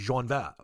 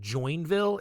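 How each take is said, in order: First: The name is said with a French pronunciation. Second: The name is read out as spelled in English. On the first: The speaker calls it right. "It's probably Joinville or some dumb French pronunciation like that" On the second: The speaker calls it wrong. "it's spelled Joinville. It's probably not pronounced that way"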